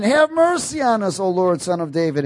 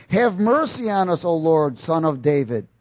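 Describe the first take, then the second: First: High, loud plea that falls away; crying out harder. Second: Raised, measured cry for mercy; blind men crying out. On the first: Blind men crying out all the more, high urgent plea. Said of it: "they cried out all the more". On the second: Blind men calling to passing Jesus, raised plea. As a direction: read it as a moderately raised plea. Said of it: "cried out, saying". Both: Acted.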